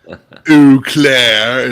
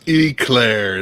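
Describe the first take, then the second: First: It does not sound like the dessert. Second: It sounds like the dessert éclair. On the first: The speaker calls it wrong. "It's not pronounced Eau Claire" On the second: The speaker calls it right. "It's pronounced Eclair. It's like a dessert"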